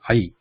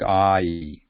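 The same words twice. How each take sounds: First: The vowel glides quickly without lengthening. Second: The vowel is stretched out and lengthened. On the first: The speaker calls it right. "the mixing should be very fast, very quick, like I" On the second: The speaker calls it wrong. "it's not elongated like I"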